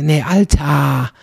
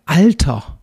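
First: "Alter" stretched to a long "al-TAA"; "Alter" with a drawn-out open final A; Altar without R. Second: Said in the usual way. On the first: Shown as a demonstration. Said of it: "also Altar ohne R". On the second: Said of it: "nicht mal Alter für".

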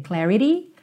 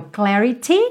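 First: "clarity" as "clari-dee" with a flapped t; tapped T. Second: "clarity" with a crisp t, clari-tee; full T. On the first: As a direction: turn the t of "clarity" into a quick tap. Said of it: "com o rarará no T". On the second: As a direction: sound the t of "clarity" fully. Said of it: "que é o clarity". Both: Shown as a demonstration.

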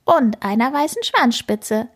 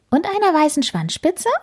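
First: Nod it back kindly; rat confirming. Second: Higher, rising curious question; eager kitten checking a detail; kitten asking. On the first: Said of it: "nickt Rita Ratte". (bestätigend, ruhiger) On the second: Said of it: "fragt Karlchen". (neugierige, hohe Frage) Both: A narrator's reading.

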